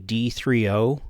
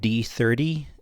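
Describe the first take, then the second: First: The ending is said as three, then letter O. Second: The ending is said as the number thirty. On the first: The speaker calls it right. "It's actually D thirty ... who puts the letter O after a number" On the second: The speaker calls it wrong. "I've been pronouncing this wrong the whole time. This is not called D thirty"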